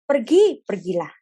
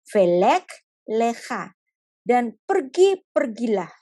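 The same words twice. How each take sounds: First: Sharp loud first word, then drops back; a firm divine command. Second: Slow, gentle order to go; God gently sending Abraham; slow gentle command. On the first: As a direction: call out the order to go. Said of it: "itu selalu lech lecha". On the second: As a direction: soften a hard command. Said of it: "Tuhan tetap bicaranya begini". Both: Acted.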